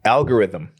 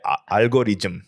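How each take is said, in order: First: It is said with a native English accent. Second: It is said with a Korean accent. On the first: "I pronounced it correctly" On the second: "pronounce it in the way the Koreans"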